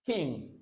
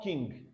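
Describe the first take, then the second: First: "king" ending on ng, no hard g; "king" as the correct model; silent g. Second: "king" with a hard g at the end; "king" released into an audible g; wrong sounded g. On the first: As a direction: let "king" fade on the nasal. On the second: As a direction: mispronounce "king" as king-g. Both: Shown as a demonstration. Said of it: "not king".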